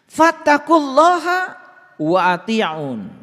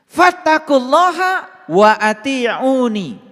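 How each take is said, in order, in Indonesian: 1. Kata terakhir berakhir dengan bunyi 'un' yang terpotong. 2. Kata terakhir berakhir dengan tambahan vokal 'i'.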